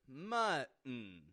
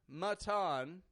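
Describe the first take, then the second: First: The middle T is a glottal stop. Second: The middle T is not a glottal stop. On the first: The speaker calls it right. "but rather mutton. We're using the glottal T in the middle" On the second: The speaker calls it wrong. "notice I'm not saying mutton"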